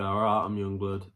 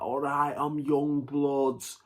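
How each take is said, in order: First: It has a milder, toned-down northern accent. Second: It has a strongly exaggerated northern accent.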